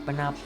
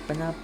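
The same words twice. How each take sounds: The two takes are said the same way.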